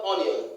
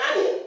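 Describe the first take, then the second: First: Onion as "ON-io"; mispronunciation. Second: Onion as AN-yun; correct pronunciation. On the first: Teacher shows what not to say, mispronunciation. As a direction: round the start of "onion" to o. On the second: Teacher models the right form, correct pronunciation. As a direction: open "a" to start "onion". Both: Shown as a demonstration. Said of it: "not onion".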